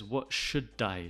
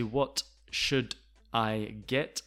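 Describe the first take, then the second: First: "What should I" as "what shu-dai"; falling, run-together "should I"; linked natural form. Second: "What should I get" slow, words separated; over-clear "should I", rising to "get"; unlinked careful form. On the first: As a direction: carry the D of "should" onto "I". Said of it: "He says". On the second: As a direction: gap between "should" and "I". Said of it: "how we do not say". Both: Shown as a demonstration.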